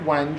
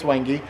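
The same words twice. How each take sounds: First: It is said the way it looks written. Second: It is said with the official pronunciation. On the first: The speaker calls it wrong. "It looks like Wenge when you buy it at a store" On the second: The speaker calls it right. "but it's Wenge"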